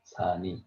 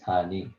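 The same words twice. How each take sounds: First: The final consonant is carried into the next vowel. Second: The same.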